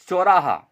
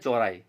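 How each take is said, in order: First: The word ends in a long 'aa' sound. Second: The word ends in an 'e' sound. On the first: The speaker calls it right. "शुद्ध शब्द है" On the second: The speaker calls it wrong. "जल्दी में उसका अशुद्ध उच्चारण करते हैं"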